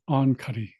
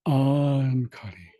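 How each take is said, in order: First: The first syllable is kept short. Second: The first syllable is stretched out long. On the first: It happened a little while ago. "if you just say ankari, that just means like a little while ago" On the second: It happened a long time ago. "that means a long time ago"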